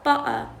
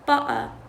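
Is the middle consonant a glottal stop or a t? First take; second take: glottal stop; glottal stop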